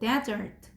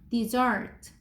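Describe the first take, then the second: First: The stress is on the first syllable. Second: The stress is on the second syllable. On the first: It means a dry, sandy land. "여기 첫 번째 글자를 크게 읽는 거예요" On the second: It means a sweet dish after a meal. "얘는 dessert 이렇게 읽어"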